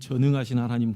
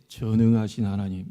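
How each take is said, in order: First: The phrase is pronounced clearly and normally. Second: The phrase is slurred, as if without teeth. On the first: This is what she meant to say. The speaker calls it right. "자꾸 전능하신 하나님이 안 되는 거예요" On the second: An old woman with missing teeth prays this way. The speaker calls it wrong. "이렇게 들리는 거예요"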